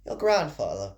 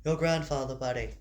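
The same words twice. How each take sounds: First: Lightly voiced mother, pitch falling away; a first, off-target stab at the mother's voice; wrong character voice. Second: Lightly voiced mother, close to the reader's own; a hint of a mother talking to her kid; mother's voice. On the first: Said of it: "that's not the voice". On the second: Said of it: "There we are".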